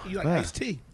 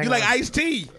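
First: The line is said with little confidence. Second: The line is said with strong confidence. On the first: The speaker calls it wrong. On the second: The speaker calls it right.

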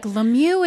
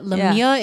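First: The name is said with an American pronunciation. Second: The name is said with a fancier, French-like pronunciation. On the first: "Lemieux is more Americanized" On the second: "but Lemieux is fancier"

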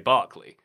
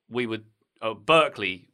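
First: The first vowel sounds like 'ar', English style. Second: The first vowel sounds like 'er', American style. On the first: "we would say Barclay" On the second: "the university"

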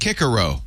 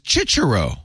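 First: The name uses the newly adopted classical pronunciation. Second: The name uses the ecclesiastical church Latin pronunciation. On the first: This is the pronunciation officially adopted later. "they've decided it's Cicero" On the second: "there's a church way to say it, which is Cicero"

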